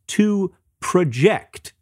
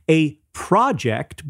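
First: The stress is on the second syllable. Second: The stress is on the first syllable.

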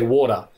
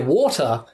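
First: Said casually, with an Australian accent. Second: Said carefully enunciated, sounding British. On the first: "like in Australia, we don't say water, we say water" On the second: "all I'm doing is pronouncing it correctly, it automatically sounds British"

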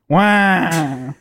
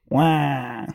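First: The noise is made at a louder volume. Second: The noise is made at a quieter volume.

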